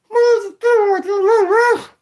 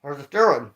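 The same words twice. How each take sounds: First: Very high, very slow dummy voice; squeaky drawn-out puppet voice; ventriloquist voice. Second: Said in the usual way. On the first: Shown as a demonstration.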